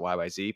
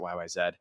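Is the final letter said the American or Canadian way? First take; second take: American; Canadian. First: The last letter is said the American way. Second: The last letter is said the Canadian way. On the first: The speaker's own country's name for the letter is used. "we pronounce it YYZ, but we're American" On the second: The band's own country's name for the letter is used. "they're Canadian, so that's why they pronounce it YYZ"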